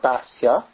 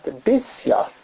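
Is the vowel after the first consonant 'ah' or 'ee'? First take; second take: ah; ee. First: The first vowel sounds like 'ah'. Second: The first vowel sounds like 'ee'. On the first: This is the form commonly used today. "not an A" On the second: This is the form written in the original source. "with a chirik, an E, under the bays"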